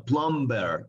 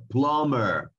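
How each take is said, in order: First: PLUMBER wrongly said with a B, "plom-ber"; plumber with B sounded. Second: PLUMBER said like "plummer", no B; drawn-out PLUMBER, M straight into -ER; plumber with silent B. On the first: Teacher showing the wrong way, PLUMBER with an audible B. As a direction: pronounce the silent B in PLUMBER. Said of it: "no plumber, sino plumber". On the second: Teacher giving students the correct way, PLUMBER without the B. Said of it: "sino plumber". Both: Shown as a demonstration.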